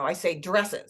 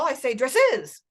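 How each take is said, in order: First: The stress falls on the first syllable. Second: The stress falls on the second syllable. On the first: The speaker calls it right. "Oh, no" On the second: The speaker calls it wrong. "if they tell you that the second syllable in dresses is the stressed one"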